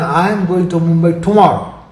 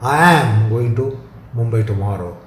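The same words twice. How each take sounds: First: The word "tomorrow" carries the stress. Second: The word "am" carries the stress. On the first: No other day is meant. "rules out the day after tomorrow or any other following day" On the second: The trip will happen no matter what. "shows the conviction and the definiteness"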